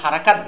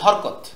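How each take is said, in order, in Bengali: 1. শব্দটি তিন শব্দাংশে উচ্চারিত হয়। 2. শব্দটি দুই শব্দাংশে উচ্চারিত হয়। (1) "হরকত না বলে হারাকাত বলবো" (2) "হরকত এটা আরবি উচ্চারণও শুদ্ধ না"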